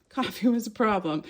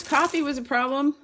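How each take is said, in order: First: Said in the usual way. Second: High rising take. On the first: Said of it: "repeats the line, first time higher". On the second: Shown as a demonstration. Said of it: "repeats the line, second time lower".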